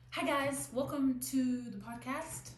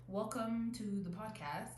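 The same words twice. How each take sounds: First: Higher, louder, slow upbeat host greeting; podcast host intro. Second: Said in the usual way. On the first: Shown as a demonstration. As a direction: greet the listeners like a bubbly show host. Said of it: "let's start again". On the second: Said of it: "I don't know why I said that twice".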